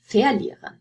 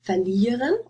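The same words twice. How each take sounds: First: "verlieren" stressed on VER; wrong stress on the prefix. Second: "verlieren" stressed on LIE; stress on the stem. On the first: Teacher offering the wrong option, VER stressed in "verlieren". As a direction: hit the first syllable of "verlieren", full VER. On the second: Teacher asking where the stress goes, LIE stressed in "verlieren". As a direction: keep VER light and stress LIE in "verlieren". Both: Shown as a demonstration. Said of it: "stress on the prefix or the stem".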